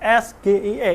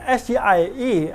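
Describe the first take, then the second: First: The letters are read with Indonesian letter names. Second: The letters are read with English letter names. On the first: The speaker calls it wrong. "dengan pelafalan Indonesia" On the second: The speaker calls it right. "disampaikannya dengan pelafalan Inggris"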